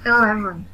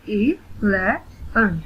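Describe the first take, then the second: First: Said in the usual way. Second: "इलेवन" very slowly in three beats; split into syllables. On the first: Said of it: "read the word". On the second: Shown as a demonstration. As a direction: say "इलेवन" one syllable at a time. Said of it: "split in the syllables". ("इलेवन" को रुक-रुककर तीन हिस्सों में)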